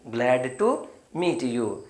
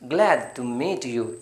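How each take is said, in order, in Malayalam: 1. ഈ വാക്യം പതുക്കെയാണ് പറയുന്നത്. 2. ഈ വാക്യം വേഗത്തിലാണ് പറയുന്നത്.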